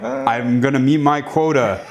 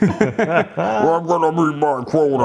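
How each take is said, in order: First: It is said in a normal voice. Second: It is said in a demonic voice.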